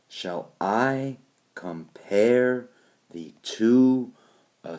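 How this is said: The stress falls on the word I. It is a rhetorical question expecting no answer. The speaker calls it right. "Instead it is"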